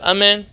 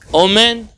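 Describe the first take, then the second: First: The word begins with an 'a' vowel. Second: The word begins with an 'o' vowel. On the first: "instead of Amen" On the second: "he says, Omen, like that"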